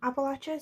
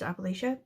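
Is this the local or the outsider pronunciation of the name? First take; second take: local; outsider. First: The name is said the way locals say it. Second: The name is said the way outsiders say it. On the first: The speaker uses the insiders' form of the name. "I feel weird calling it Appalachia because I'm not actually from Appalachia" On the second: The speaker uses the outsiders' form of the name. "like people who aren't from Appalachia would say it, which is Appalachia"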